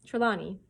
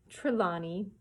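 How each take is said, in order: First: Said in the usual way. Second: "Trelawney" said slowly through a laugh; laughing correction. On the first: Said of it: "or Trelawn". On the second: Real, not acted. Reader fixing a stumbled name, laughing. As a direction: chuckle and sound out "Trelawney".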